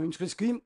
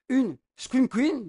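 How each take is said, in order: First: Said in the usual way. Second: Une Scream Queen said slow and higher, each word marked; slow emphatic Scream Queen; stressed term. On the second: Shown as a demonstration. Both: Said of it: "une Scream Queen ou une Fanal Girl".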